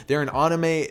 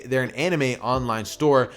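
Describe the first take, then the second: First: "anime" said with an open AH at the start; first vowel of "anime" like the one in "father"; anime as AH-nime. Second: Said in the usual way. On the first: Real, not acted. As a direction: say "anime" as AH-nuh-may. Says anime, then redoes it.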